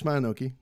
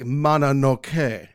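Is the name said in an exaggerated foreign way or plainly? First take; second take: plainly; exaggerated. First: The name is said in a plain English way. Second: The name is said in an exaggerated foreign way. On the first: The speaker calls it right. "That's fine" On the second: The speaker calls it wrong. "you end up overreaching"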